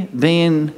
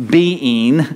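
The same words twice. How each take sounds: First: "being" run into one syllable, like "bean"; "being" squashed to a single syllable; North Texas twang. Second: "being" split into two syllables, "be-ing"; "being" sounded out as "BE-ing"; corrected pronunciation. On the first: Real, not acted. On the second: Shown as a demonstration. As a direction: carefully separate "being" into "be" and "ing". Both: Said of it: "sounds like I always say being".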